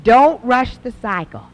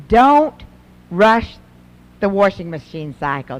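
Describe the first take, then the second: First: "Don't" leaned on, whole line slowed down; slow emphatic repeat. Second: 把"Don't"和"rush"分开重读，声音加大; quoting advice. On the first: Shown as a demonstration. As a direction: spell out "Don't rush the cycle" slowly and firmly. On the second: Retold or imitated. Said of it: "Doctor Heil says".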